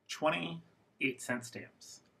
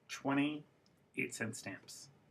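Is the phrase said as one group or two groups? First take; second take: two groups; two groups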